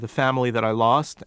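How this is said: It is said in a non-Southern accent.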